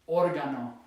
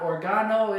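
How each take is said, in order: First: The stress is on the first syllable. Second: The stress is on the second syllable. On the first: The speaker calls it right. "we've got the written accent here because that's how you say it" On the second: The speaker calls it wrong. "It ends in a vowel, so it should be here ... So it's not organo"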